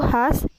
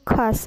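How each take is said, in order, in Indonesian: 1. Kata ini dimulai dengan bunyi h biasa. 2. Kata ini dimulai dengan bunyi kh yang kasar. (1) "fonem K H diucapkan menjadi H ... contoh salahnya yaitu khas" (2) "yang benarnya yaitu khas, menggunakan K dan H"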